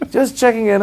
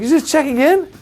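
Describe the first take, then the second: First: Higher, breezy British confirmation; casual British king. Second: Very high disbelieving question; can't believe it, rising; incredulous echo. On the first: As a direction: shrug it off like royalty. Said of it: "he's got a little British accent". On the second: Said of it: "I was like". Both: Retold or imitated.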